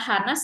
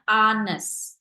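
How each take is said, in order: First: The word begins with an audible h sound. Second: The word begins with a vowel, h silent. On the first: The speaker calls it wrong. "cara bacanya bukan Hanes" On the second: The speaker calls it right. "kita bacanya honest"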